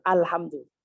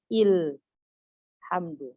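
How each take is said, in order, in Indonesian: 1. Vokal pertamanya bunyi 'a' terbuka. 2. Vokal pertamanya bunyi 'i' tertutup. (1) "dia tidak merubah yang fathah jadi kasrah" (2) "Dia tidak boleh membacanya ilhamdu"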